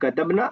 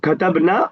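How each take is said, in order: First: The final vowel is kept short. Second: The final vowel is drawn out long. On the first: They (female, plural) wrote. "बगैर खींचे, बगैर अलिफ के" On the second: We wrote. "We wrote"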